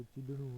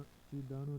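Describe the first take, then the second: First: चिदणु with short a; correct form. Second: चिदाणु with long aa; wrong form. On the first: Teacher giving the correction, short-vowel चिदणु. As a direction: say चिदणु as chi-da-nu. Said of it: "होता है". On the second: Teacher showing learners the mistake, long-vowel चिदाणु. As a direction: say चिदाणु as chi-daa-nu. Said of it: "नहीं होता". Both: Shown as a demonstration.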